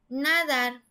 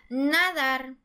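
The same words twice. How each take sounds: First: The stress is on the first syllable. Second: The same.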